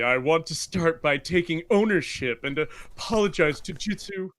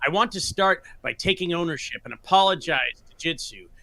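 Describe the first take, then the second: First: It is read in a put-on Wilsonator voice. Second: It is read in his normal own voice.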